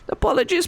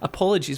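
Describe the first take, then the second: First: It is said in a put-on house elf voice. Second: It is said in his normal voice.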